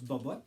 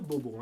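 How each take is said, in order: First: The name ends with an added t sound. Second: The name ends on a plain vowel sound. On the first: The speaker calls it wrong. "les Haïtiens, des fois, prononcent Bobotte" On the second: The speaker calls it right. "Il faut dire Bobo"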